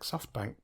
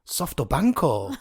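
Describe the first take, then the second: First: It is said with an English accent. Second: It is said with a Japanese accent. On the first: "I was saying SoftBank" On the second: "you said Softobanko"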